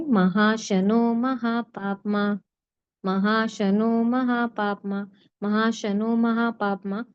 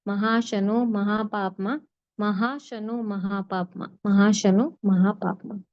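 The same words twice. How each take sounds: No difference in how they are said.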